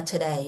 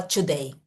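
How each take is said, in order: First: "today" with a soft tapped d; reduced "today". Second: "today" with a full hard d; careful "today". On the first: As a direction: let the consonants in "today" go loose and quick. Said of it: "que ele fala today". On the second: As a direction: pronounce "today" carefully, each consonant fully made. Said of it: "Ele não fala today". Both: Shown as a demonstration.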